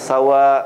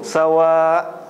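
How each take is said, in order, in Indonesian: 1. Vokal terakhir ditahan satu ketukan. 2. Vokal terakhir ditahan lebih panjang. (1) "dibaca satu baris saja" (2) "ada orang baca laisu sawa. Nah, salah ya"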